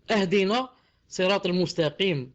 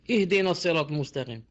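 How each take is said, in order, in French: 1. Le premier mot commence par la voyelle 'a'. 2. Le premier mot commence par la voyelle 'i'. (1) "Comme ça, avec A" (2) "on doit dire I"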